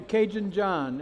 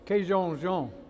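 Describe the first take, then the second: First: The name is said in plain American English. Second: The name is said with a French-sounding Cajun accent.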